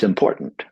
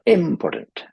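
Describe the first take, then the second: First: "important" with the middle syllable POR stressed; weight the POR in "important". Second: "important" with IM punched high; wrong initial stress. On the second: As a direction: hit the first syllable of "important" high, then drop. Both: Shown as a demonstration. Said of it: "not important".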